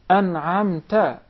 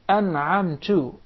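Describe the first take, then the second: First: The word ends with a short 'a' vowel. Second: The word ends with a short 'u' vowel. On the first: You bestowed the favor. The speaker calls it right. "it is, oh you Allah, the one who bestowed your favor, because it is to the second person" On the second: I bestowed the favor. The speaker calls it wrong. "you change the vowel on top of the ta into Dhamma, it becomes the first person"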